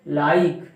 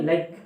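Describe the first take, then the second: First: "लाइक" louder, with the vowel held long. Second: "लाइक" said short and quick; clipped short vowel. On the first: Teacher showing a long sound, "लाइक" drawn out emphatically. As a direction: stretch the glide in "लाइक". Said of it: "long sound जा रही है इसकी". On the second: Teacher showing how it isn't said, "लाइक" clipped short. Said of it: "ऐसे बोलते नहीं". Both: Shown as a demonstration.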